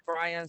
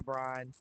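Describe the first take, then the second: First: "Brian" as BRY-un; "Brian" with a separate second vowel; two-syllable "Brian". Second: "Brian" squashed to "Brine"; one-beat "Brian", like "brine"; Southern "Brian". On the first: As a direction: give "Brian" both syllables. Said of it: "Sometimes I say Brian". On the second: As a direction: say "Brian" in one syllable, rhyming with "line". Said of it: "sometimes I say Brian". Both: Shown as a demonstration.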